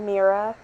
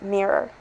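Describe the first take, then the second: First: The word ends in an 'a' sound. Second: The word ends in an 'or' sound. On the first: The speaker calls it wrong. "I kind of prefer mirror" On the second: The speaker calls it right. "It is pronounced mirror"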